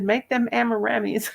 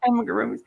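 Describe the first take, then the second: First: Amaramis said as am-uh-RAH-mees, the husband's wrong word; mock him saying amaramis with a laugh; imitating the husband's botched amaramis, amused; mangled word. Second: Amigurumis said properly as ah-mee-goo-roo-mees; Amigurumis, crochet term said correctly; correct pronunciation. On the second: Shown as a demonstration. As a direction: spell out Amigurumis carefully, the right way. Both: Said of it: "Amaramis instead of amigurumis".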